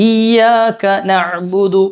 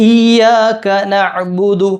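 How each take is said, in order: Both takes have the same delivery.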